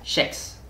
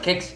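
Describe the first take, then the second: First: The word begins with a soft sh sound. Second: The word begins with a hard k sound. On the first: This is how people from one local region say it. "where I'm from, Gothenburg, we say it differently. The K becomes like a sh" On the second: This is how most speakers say it. "people say kex"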